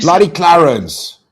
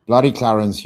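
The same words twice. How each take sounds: First: Loud, drawn-out cheer of the name; excited shoutout. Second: Said in the usual way. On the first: Real, not acted. Streamer greeting a donor with a loud, drawn-out cheer. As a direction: stretch out Bloody Clarence like a big hype call.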